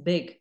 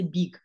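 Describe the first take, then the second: First: The vowel sounds like an English vowel. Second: The vowel sounds like an Azerbaijani vowel. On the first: The speaker calls it right. "It's not e, it's big" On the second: The speaker calls it wrong. "they say in English with their Azerbaijani accent, they will say big"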